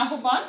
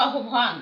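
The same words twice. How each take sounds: First: আহ্বান read as spelt, ahban with the b plain; আহ্বান as spelt, not as spoken; spelling pronunciation. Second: আহ্বান said as ahobhan, breathy bh; আহ্বান with ohobh in the middle; spoken pronunciation. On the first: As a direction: read আহ্বান letter by letter as written. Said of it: "বানান লেখার সময়". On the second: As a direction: say আহ্বান the way it really sounds, ahobhan. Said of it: "উচ্চারণ কিন্তু". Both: Shown as a demonstration.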